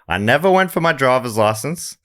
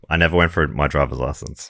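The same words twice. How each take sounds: First: The voice does not fall at the end. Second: The voice falls at the end. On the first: The speaker calls it wrong. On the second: The speaker calls it right.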